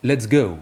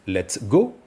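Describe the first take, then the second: First: "let's go" with the "go" gliding from e to o like an English diphthong; "let's go" with an open English glide on "go"; English-style let's go. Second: "let's go" with a short, clean French "go" and no glide; "let's go" with a stable French vowel; French-style let's go. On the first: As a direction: let the "go" slide through two vowels, English style. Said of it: "Si on prononce maintenant à l'anglaise". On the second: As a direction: say "go" as a flat, precise French o. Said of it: "Si on la prononce à la française". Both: Shown as a demonstration.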